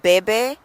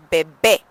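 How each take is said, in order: First: "bebé" stressed on the first syllable, BEH-beh. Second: "bebé" loud on its last syllable, bay-BAY; stress on final BÉ. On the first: Teacher recalling the unaccented word, first-syllable stress on "bebé". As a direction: lean on the front of "bebé". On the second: Teacher showing where emphasis goes, final stress on "bebé". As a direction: punch the end of "bebé". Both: Shown as a demonstration. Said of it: "I put that emphasis over the E".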